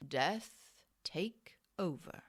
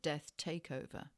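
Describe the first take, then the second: First: "Death take over" slowly, as separate words; separated words. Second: "death takeover" softer, as one compound; run-together words. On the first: Reader trying a phrase one way, "Death take over" slow and split. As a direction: pause between each word of "Death take over". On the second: Reader offering another reading, "death takeover" soft and joined. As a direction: join "take" and "over" into one word, "death takeover". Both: Shown as a demonstration. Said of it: "Or that could be said".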